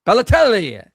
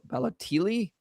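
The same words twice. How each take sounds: First: Balotelli. said "pa-lo-TEL-li" firmly, louder and higher, falling; corrected name. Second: Balotelli? guessed as "pa-lo-TEE-lee" with a rising question; host tries the name Balotelli? haltingly, tentative; unsure name guess. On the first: Host repeats the cohost's corrected name, loud and sure. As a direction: echo the cohost's Balotelli. confidently. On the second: Host guessing a guest's name aloud, unsure rising. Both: Real, not acted.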